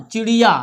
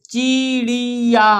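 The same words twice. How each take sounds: First: Said in the usual way. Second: चिड़िया lent, en trois syllabes longues; étire चिड़िया syllabe par syllabe; lecture syllabée. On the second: Shown as a demonstration. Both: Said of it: "हमारे साथ पढ़ना है आपको".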